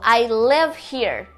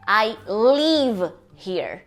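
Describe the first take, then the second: First: The vowel in live is short. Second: The vowel in live is long. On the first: The speaker calls it right. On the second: The speaker calls it wrong.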